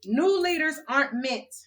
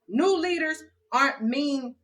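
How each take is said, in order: First: "meant" said clearly with the t; corrected reading ending on "meant". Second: "mean" said without the t, as mean; misread line. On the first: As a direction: fix the word to "meant". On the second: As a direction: reads "mean" where meant was intended. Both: Shown as a demonstration. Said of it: "I misspelled some words".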